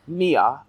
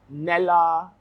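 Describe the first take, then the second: First: The name has no L sound in the middle. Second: The name has an L sound in the middle. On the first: The speaker calls it right. "you pronounce it Nia" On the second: The speaker calls it wrong. "I feel like I just said her name wrong"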